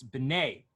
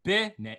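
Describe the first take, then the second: First: B'nai with the weight on the end; quick first syllable, land on the second in B'nai; B'nai, end-stressed as the correct example; stress on last syllable. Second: B'nai with a high, punched first syllable; B'nai, front-stressed as a wrong example. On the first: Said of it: "where you put the emphasis of the word". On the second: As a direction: hit the start of B'nai hard, drop the end. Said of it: "it's not". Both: Shown as a demonstration.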